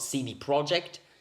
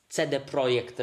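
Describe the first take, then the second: First: The name is said with an English accent. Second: The name is said with a Polish accent. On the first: The speaker calls it wrong. "it's not" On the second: The speaker calls it right. "If you want to be Polish about it, you say"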